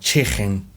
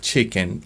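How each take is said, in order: First: It is said with a Scouse accent. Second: It is said with a standard accent. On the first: "they tend to use this sound like chicken" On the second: "instead of chicken"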